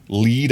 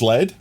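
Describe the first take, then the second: First: "Lead" said like "leed"; long-vowel LEAD. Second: "lead" said like "led"; short-vowel LEAD. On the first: Streamer puzzling over the word, "Lead" as "leed". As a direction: say "Lead" to rhyme with "need". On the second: Streamer puzzling over toxic material, "lead" as "led". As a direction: say "lead" to rhyme with "bed". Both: Shown as a demonstration. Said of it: "completely different pronunciations and meanings".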